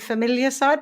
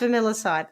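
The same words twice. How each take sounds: First: The word contains the full word 'familiar'. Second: The word does not contain the full word 'familiar'. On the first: The speaker calls it wrong. "in my head it's been familiarcide" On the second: The speaker calls it right. "but it's familiarcide"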